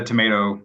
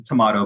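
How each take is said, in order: First: Tomato with "ay", tuh-MAY-toe; North American pronunciation. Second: Tomato with "ah", tuh-MAH-toe; British-style pronunciation. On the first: Expert comparing dialects, tomato as tuh-MAY-toe. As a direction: say tomato with a long "a". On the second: Expert comparing dialects, tomato as tuh-MAH-toe. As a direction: say tomato with a broad "a". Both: Shown as a demonstration. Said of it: "no right way to pronounce".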